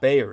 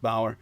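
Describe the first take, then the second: First: The first vowel sounds like 'ay' in 'day'. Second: The first vowel sounds like 'ow' in 'cow'. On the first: The speaker calls it wrong. "It's not Bayer" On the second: The speaker calls it right. "It's more like Bauer"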